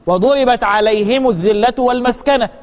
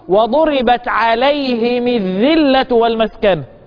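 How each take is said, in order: First: The m of alayhim takes a u vowel. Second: The m of alayhim takes an i vowel. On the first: This is the general reading of all reciters. "القاعدة العامة ان انا اعمل الضم بدون صلة" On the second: This is one particular reciter's variant reading. "هكسر الميم تبعا لكسرة الهاء"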